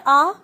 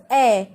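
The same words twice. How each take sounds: First: "a" said as a broad 'aa'; the mistaken 'ah' sound for a; wrong vowel. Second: "a" said as open 'ae'; the apple vowel for a, held clearly; correct vowel. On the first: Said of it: "it is not". (a का ग़लत उच्चारण, 'आ' जैसा) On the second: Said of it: "it is a". (a का सही उच्चारण, 'ऐ' जैसा) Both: Shown as a demonstration.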